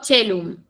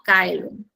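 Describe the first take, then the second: First: The word begins with a ch sound. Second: The word begins with a k sound. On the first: This is the ecclesiastical Latin pronunciation. "esta C se pronuncia como una che" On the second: This is the classical Latin pronunciation. "lo pronunció como caelum, con K"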